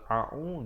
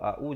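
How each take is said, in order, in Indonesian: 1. Kedua bunyi konsonannya ain. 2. Kedua bunyi konsonannya hamzah. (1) "Kalau a'u dua-dua ain" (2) "Kalau a'u jadi hamzah"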